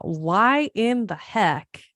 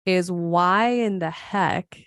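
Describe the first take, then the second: First: "Why in the heck" said slowly, with "Why" lifted and drawn out; relishing heck. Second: Said in the usual way. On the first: Shown as a demonstration. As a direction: savour every word of "Why in the heck". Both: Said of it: "I love saying heck".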